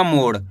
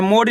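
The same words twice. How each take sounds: First: मोड़ with flapped ड़ at the end; मोड़ ending in a retroflex flap, not hard D; correct flapped ending. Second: मोड़ with a hard ड stop, no flap; मोड़ ending in a hard retroflex stop; mispronunciation demo. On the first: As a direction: flick the tongue for the ड़ in मोड़. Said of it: "अड़ा का उच्चारण निकलेगा". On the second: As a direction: say मोड़ as if it had no dot, ending in plain D. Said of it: "इस तरीके से मोड़ ही नहीं पढ़ना". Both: Shown as a demonstration.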